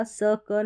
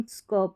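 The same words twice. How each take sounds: First: स क said as two separate sounds with a vowel between; split syllables. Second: स्क said as one blended sk cluster; joined cluster. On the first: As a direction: break स क apart. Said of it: "स क नहीं पढ़ेंगे हम". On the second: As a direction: glide स्क together. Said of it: "स्क पढ़ेंगे". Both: Shown as a demonstration.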